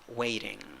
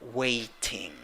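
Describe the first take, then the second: First: The middle sound is a quick flap. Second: The middle sound is a clear T.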